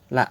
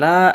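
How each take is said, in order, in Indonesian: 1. Vokalnya diucapkan pendek. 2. Vokalnya diucapkan panjang. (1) "pendek lamnya" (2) "bukan la"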